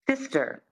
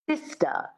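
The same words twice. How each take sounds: First: It has a pronounced R at the end. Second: The R is dropped, ending in a schwa.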